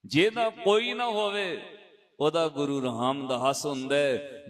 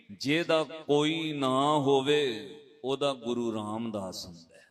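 First: Emphatic repeat. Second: Gentle comfort. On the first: Preacher repeating the elder's words to the sangat, firm and raised. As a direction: proclaim it as a promise to the congregation. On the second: Elder comforts the boy, repeated. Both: Retold or imitated.

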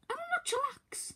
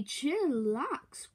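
First: High, tense whispered retort; fuming whisper. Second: Said in the usual way. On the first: Acted. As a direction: hiss back through the teeth. Fuming reply.

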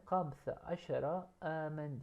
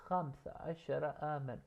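First: Slow Arabic model. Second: Said in the usual way. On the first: Shown as a demonstration. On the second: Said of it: "Benim yaşım".

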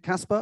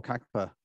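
First: Casper said with an S in the middle; questioned pronunciation. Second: Kacper tried with a hard K-sound mid-word; alternative pronunciation. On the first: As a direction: ask "Casper" as a first guess, KAS-per. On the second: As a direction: offer "Kacper" as the second guess, KAK-per. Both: Shown as a demonstration. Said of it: "my foreign pronunciation skills are not great".

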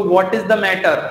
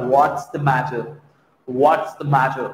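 First: Said in the usual way. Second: Slow "What's" run together into one syllable; contracted whats. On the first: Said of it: "एक तरफ सोचो". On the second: Shown as a demonstration. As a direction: glide "What's the matter" smoothly. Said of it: "और एक तरफ निकल रहा". ("What's" को जोड़कर धीरे बोलें)

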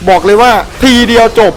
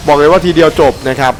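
First: บอกเลยว่าทีเดียวจบ crowed high with a falling finish; cocky boast. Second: Said in the usual way. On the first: Real, not acted. Gamer bragging he killed the boss in one hit, high cocky crow.

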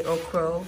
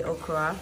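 First: "okro" ending in an o sound; okro pronunciation. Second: "okra" ending in an a sound; okra pronunciation. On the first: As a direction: say "okro" with a final o. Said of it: "Some people will say okro". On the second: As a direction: say "okra" with a final a. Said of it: "we say okra". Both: Shown as a demonstration.

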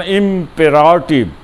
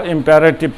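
First: ইম্পেরাটিভ said with a clear 'pe' in the second syllable, 'im-pe-ra-tiv'; careful teacher's model of ইম্পেরাটিভ, second syllable 'pe' not 'pa'; correct pronunciation. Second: ইম্পারেটিভ said with 'pa' in the second syllable, 'im-pa-re-tiv'; quoting how people usually say ইম্পারেটিভ, 'pa' then 're'; common mispronunciation. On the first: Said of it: "উচ্চারণ ইম্পেরাটিভ". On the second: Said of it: "আমরা ইম্পারেটিভ কই". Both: Shown as a demonstration.

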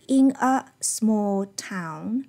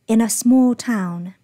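First: "in a small town" slow, each word separate; unlinked IN A. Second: "in a" joined, leading into loud "small town"; linked IN A. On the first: Teacher repeats what the student read, separated "in a small town". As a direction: keep "in" and "a" apart, unlinked. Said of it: "他念的是". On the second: Teacher models natural linking, joined "in a small town". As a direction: slide "in a" together, land on "small town". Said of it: "就会出现一个连读". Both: Shown as a demonstration.

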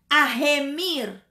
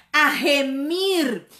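No difference in how they are said.

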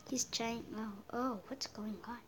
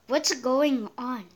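First: Very soft, low aside; quiet puzzlement. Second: Slow question at normal volume; drawn-out puzzlement. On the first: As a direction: say it under your breath. Puzzled aside during game. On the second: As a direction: stretch the question out, bewildered. Repeats puzzled question more forcefully. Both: Real, not acted.

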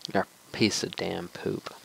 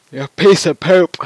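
First: Said in the usual way. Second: High, loud yelled insult; angry shout. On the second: Real, not acted. Gamer insulting the bride boss, loud high angry shout. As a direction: scream the insult right at the enemy.

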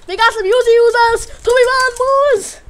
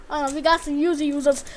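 First: Higher, louder warning call; shouted alarm about the Uzi users. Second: Said in the usual way. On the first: Real, not acted.

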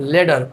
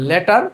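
First: "ল্যাডার" with a flapped t like d; American pronunciation. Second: "লেটার" with a hard, clear t; Bengali pronunciation. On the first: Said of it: "আমেরিকানরা বলে হচ্ছে". ("ল্যাডার" American উচ্চারণে, ড-এর মতো) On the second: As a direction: say "লেটার" the Bengali way, t fully sounded. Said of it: "আমরা বাঙালিরা যেটাকে বলি". ("লেটার" বাঙালি উচ্চারণে, স্পষ্ট ট) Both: Shown as a demonstration.

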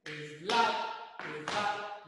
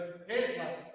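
First: "Slap" as es-LA, loud second syllable; loud "slap" in two syllables, accent on A; stress on the A. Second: "slap" as ES-la, accent on the added E; loud "slap" with the stress moved onto E. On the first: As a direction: keep the E light and hit the A in "slap". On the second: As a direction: wrongly punch the first syllable, ES-lap. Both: Shown as a demonstration. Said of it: "no la E".

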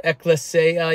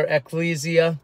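First: Ecclesia as ek-luh-SAY-uh; stressed AY in ecclesia. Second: Ecclesia as ek-LEE-zee-uh; long EE in ecclesia. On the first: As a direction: say ecclesia with a SAY in the middle. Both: Shown as a demonstration. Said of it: "you might say, or".

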